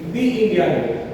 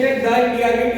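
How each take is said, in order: First: 'The' is pronounced with a long 'ee' vowel. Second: 'The' is pronounced with a short 'uh' vowel. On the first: The speaker calls it right. "हम डी का pronunciation करते हैं" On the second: The speaker calls it wrong. "Not like you से द India gate"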